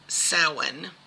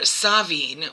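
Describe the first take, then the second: First: It is said the traditional Gaelic way. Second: It is said the Scottish way. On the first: "The traditional, I believe, Gaelic pronunciation of it is" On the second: "which is um, Scottish, I believe"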